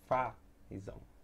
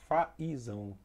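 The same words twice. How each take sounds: First: The i glides weakly after the a. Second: The i is said as its own full vowel. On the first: The speaker calls it right. "essa sonoridade mais forte está no A" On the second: The speaker calls it wrong. "Percebem que ele distorce a palavra"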